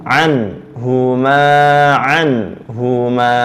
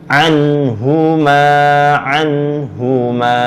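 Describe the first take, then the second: The two takes are said the same way.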